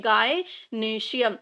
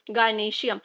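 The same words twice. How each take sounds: First: "gynoecium" very slowly, pausing after gy; broken into parts. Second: Said in the usual way. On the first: Shown as a demonstration. Teacher introducing the group's name to students, "gynoecium" slowly broken up. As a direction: stretch "gynoecium" out in separate parts, gy-noecium. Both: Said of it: "इनके group को हम क्या बोलते हैं".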